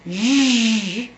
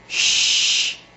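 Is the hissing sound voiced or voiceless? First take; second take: voiced; voiceless. First: The sound is buzzed with the voice on. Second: The sound is hissed without any voicing. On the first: "voiced and fermata" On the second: "unvoiced and fermata"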